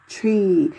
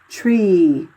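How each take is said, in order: First: It begins with a hard t sound. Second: It begins with a hard t sound.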